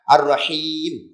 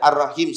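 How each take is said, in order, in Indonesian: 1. Vokal terakhirnya dibaca panjang. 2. Vokal terakhirnya dibaca pendek. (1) "dia kena panjang sikit... Ha, gitu. Kena baca gitu" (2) "pendek, jadi dia dia hilang makna maha tu"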